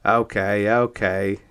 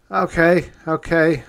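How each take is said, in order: First: Said in the usual way. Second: High, loud urgent plea; loud pleading. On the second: Acted. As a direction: beg them to stop, loudly. Narrator pleads in steam.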